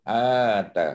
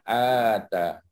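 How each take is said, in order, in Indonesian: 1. Vokalnya dipanjangkan. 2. Vokalnya dipanjangkan.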